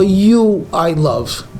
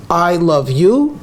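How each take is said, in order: First: "you I love" very slow, stress on "you"; "you" first and stressed. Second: "I love you" said slowly, rising on "you"; slow and even. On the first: Teacher contrasting exclusive wording. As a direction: lead hard with "you", then "I love". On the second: Teacher showing the ordinary phrasing. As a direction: lay out "I love you" word by word. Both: Shown as a demonstration. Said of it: "the difference between".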